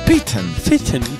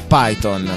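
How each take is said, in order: First: The name is said as 'Piten'. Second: The name is not said as 'Piten'. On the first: The speaker calls it right. "ma era il signor" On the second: The speaker calls it wrong. "La pronuncia precisa non era il signor Python"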